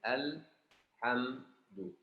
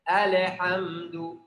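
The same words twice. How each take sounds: First: The L is held steadily without an added vowel. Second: The L is released with an added vowel bounce. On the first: The speaker calls it right. "Ini harus al-ha, al-ha, al-ha. Seperti ini" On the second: The speaker calls it wrong. "Yang baca salah, suka baca seperti ini"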